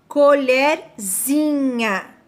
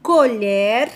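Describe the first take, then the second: First: "colherzinha" stretched very slowly, suffix -zinha drawn out; slow teaching demo. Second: Said in the usual way. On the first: Shown as a demonstration. Teacher to pupils, showing the diminutive very slowly. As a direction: say "colherzinha" slowly, leaning on the ending. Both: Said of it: "Mudou o sentido da minha palavra".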